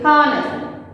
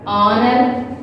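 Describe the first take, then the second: First: Honor said with a breathed H at the front; sounded H. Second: Honor said with no H, opening on the vowel; silent H. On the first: Teacher showing the mistake to avoid, honor with its H sounded. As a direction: pronounce the H in "honor" as in "hot". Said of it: "You should not say". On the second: Teacher showing the silent H, honor begun on its vowel. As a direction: start "honor" straight on the O sound. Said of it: "we are not pronouncing". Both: Shown as a demonstration.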